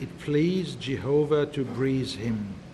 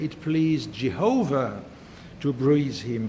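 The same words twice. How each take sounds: First: Jehovah gets no special emphasis. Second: Jehovah gets strong emphasis. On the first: "To read" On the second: "we can put the emphasis on Jehovah"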